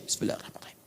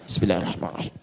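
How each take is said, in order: First: It is recited very softly, almost without sound. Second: It is recited so that it is clearly heard. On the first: It is recited privately, not heard by others. The speaker calls it right. "Sir, silent. Ya, tidak ada bunyinya" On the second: It counts as reciting aloud for others to hear. The speaker calls it wrong. "Kalau seperti itu sama aja jahar. Jahar karena bacaan antum kedengaran orang"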